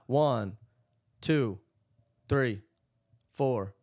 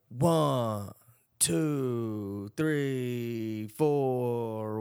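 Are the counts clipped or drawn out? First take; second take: clipped; drawn out. First: Each count is cut short and separated. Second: Each count is held long and connected. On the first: Each quarter note is cut short. The speaker calls it wrong. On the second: Each quarter note is heard for its whole length. The speaker calls it right. "So you're really hearing that whole quarter note"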